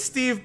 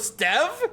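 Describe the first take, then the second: First: The vowel is a long E sound. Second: The vowel is a short E sound. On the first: The speaker calls it right. "No, it's a long E sound" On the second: The speaker calls it wrong. "short E, so Stev?"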